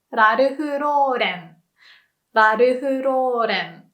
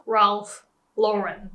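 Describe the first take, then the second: First: "Ralph Lauren" with tapped R throughout, "rarufu rōren"; Japanese pronunciation. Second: "Ralph Lauren" with distinct English R and L; English pronunciation. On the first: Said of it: "Japanese people would just pronounce everything with R". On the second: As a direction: say "Ralph Lauren" slowly, "ralf LOR-en". Shows the hard R and L. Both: Shown as a demonstration.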